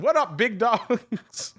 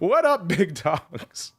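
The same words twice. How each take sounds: First: It is read while laughing. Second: It is read with a straight face.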